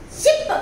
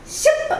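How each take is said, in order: First: "ship" repeated very high; repeated word. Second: "Ship" said very high with a laugh; modeled word. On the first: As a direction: say "ship" again, still high and clear. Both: Shown as a demonstration. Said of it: "So I will read out".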